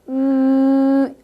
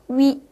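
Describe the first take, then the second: First: The vowel stays steady with rounded lips. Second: The vowel glides from u to i. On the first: The speaker calls it right. "우라는 입모양에 위라는 음을 낸다라고 생각을 하시면 돼요" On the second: The speaker calls it wrong. "위라고 하시면 절대로 안 돼요"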